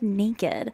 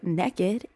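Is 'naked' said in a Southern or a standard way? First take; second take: standard; Southern. First: It is said with a standard pronunciation. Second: It is said with a Southern pronunciation. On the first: "instead of naked" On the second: "in the South, a lot of people say naked"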